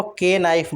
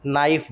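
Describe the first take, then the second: First: "नाइफ" with a separate "के" before it; K sounded. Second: "नाइफ" starting straight on the N; silent K. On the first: Teacher shows the mistake, "के नाइफ" with K sounded. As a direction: wrongly voice the silent K before "नाइफ". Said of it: "बोलना गलत है". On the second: Teacher corrects learners, "नाइफ" with silent K. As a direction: drop the K, say "नाइफ". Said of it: "नाइफ बोलते हैं". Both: Shown as a demonstration.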